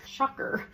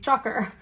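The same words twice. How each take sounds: First: Unvoiced whisper of shocker. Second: Said in the usual way. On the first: Shown as a demonstration. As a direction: breathe out shocker with no voice.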